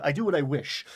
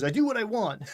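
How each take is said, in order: First: Lofty, declaiming the line; high fantasy poetic. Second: Defiant. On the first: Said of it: "way more high fantasy and poetic". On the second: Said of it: "And he goes". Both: Retold or imitated.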